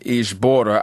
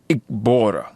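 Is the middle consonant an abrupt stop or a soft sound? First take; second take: soft sound; abrupt stop. First: The middle consonant is soft, with no abrupt stop. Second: The middle consonant is an abrupt stop. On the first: The speaker calls it wrong. "those two words that I mispronounced" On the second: The speaker calls it right. "the proper pronunciations"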